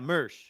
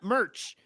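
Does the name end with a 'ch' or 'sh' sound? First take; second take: sh; ch. First: The name ends with a soft 'sh' sound. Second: The name ends with a hard 'ch' sound. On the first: The speaker calls it right. "Mersh, not Merch" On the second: The speaker calls it wrong. "not Merch"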